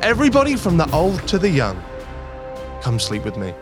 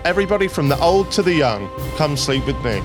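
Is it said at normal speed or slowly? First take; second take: slowly; normal speed. First: It is said very slowly. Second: It is said at a normal pace.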